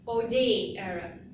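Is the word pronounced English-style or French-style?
French-style. It is said with a French pronunciation. The speaker calls it right. "let me give you the clear pronunciation"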